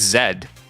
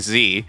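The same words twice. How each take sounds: First: The letter is said the British way. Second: The letter is said the American way. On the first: The listener speaks British English. "British English, it's Z" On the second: The listener is American. "If they're American, I'll say Z"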